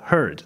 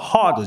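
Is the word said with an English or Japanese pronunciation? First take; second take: English; Japanese. First: It is said with an English-style pronunciation. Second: It is said with a Japanese-style pronunciation. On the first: The speaker calls it right. "あっちはheard ってなんです" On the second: The speaker calls it wrong. "ハードじゃなくて"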